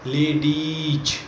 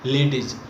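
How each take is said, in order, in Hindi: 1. यह शब्द ज़ोर देकर खींचकर बोला जाता है। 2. यह शब्द छोटा बोला जाता है, खींचा नहीं जाता। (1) "एक्सटेंशन के साथ बोला जाता है, जोर दे के बोला जाता है" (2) "लेडीज शब्द ऐसा है जिसका इस्तेमाल हर कोई गलत करता है।"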